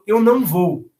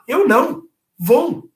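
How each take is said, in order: First: It is said without a pause after não. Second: There is a pause after não. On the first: The speaker is not going. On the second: The speaker says no to something but is going.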